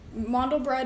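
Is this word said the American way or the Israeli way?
American. The word is said with an American pronunciation. "the American way of saying it"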